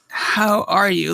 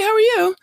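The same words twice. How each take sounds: First: It is asked in a sincere, probing way. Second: It is asked in a casual, offhand way.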